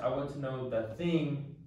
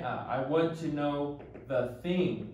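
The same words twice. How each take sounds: First: Said in the usual way. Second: I want to know the thing, drawn out slowly; slow teaching emphasis. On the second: Shown as a demonstration. Teacher contrasting thing with what for learners, slowly. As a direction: spell the phrase out slowly and deliberately. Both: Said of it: "not what".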